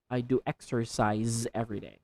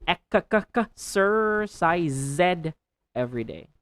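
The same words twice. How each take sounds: First: Said in the usual way. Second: Ek-ka-ka-ka-sercise, stumbling on the k; stuttered exercise. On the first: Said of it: "correct take". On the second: Shown as a demonstration. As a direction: trip over the cluster in exercise. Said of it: "wrong take of exercise".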